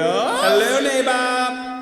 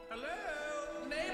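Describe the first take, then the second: First: It is said loudly. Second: It is said softly.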